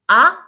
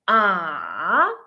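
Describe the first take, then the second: First: The pitch rises from lower to higher. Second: The pitch falls and then rises again. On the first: "the second tone ... rise in your tone" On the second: "The third tone ... should be fallen and then rising"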